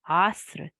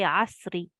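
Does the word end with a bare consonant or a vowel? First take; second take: bare consonant; vowel. First: The word ends on the r without a vowel. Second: The word ends with a short i vowel. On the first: The reading stops at this word. "But we will stop, and therefore the kasra becomes skoon" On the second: The reading continues without stopping. "if we were not stopping, we would say asri"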